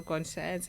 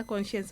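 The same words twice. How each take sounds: First: "conscience" like con-SCIENCE; alternative pronunciation. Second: "conscience" with a sh sound, CON-shuns; alternative pronunciation. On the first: Co-host offers the other reading, "conscience" said con-SCIENCE. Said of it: "I don't know". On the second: Co-host unsure how to say the topic word, "conscience" said CON-shence. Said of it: "It's either conscience or conscience". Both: Shown as a demonstration.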